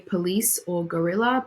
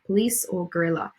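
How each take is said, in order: First: The unstressed vowels are fully pronounced. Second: The unstressed vowels are dropped, sounding condensed. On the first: "you might say" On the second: "if we're deleting those vowels, it might come out more like"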